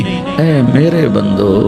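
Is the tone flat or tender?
tender. It is said in a warm, tender tone. The speaker calls it right.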